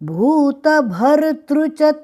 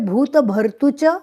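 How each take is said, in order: First: The syllable after 't' has a vocalic 'ri' sound. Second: The syllable after 't' has a plain 'u' vowel. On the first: The speaker calls it right. "भर्तृ भर आधार तृ तृ" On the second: The speaker calls it wrong. "भूत भर्तुच बोलने से गलत उच्चारण होगा"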